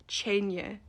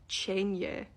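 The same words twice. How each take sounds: No difference in how they are said.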